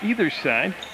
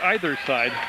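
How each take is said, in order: First: The word either has a plain, everyday pronunciation. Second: The word either has a posh, refined pronunciation. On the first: The speaker is an ordinary working person. "that's the way you say it if you're blue collar like me" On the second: The speaker is educated and wealthy. "if you're educated and rich, you'll say either side"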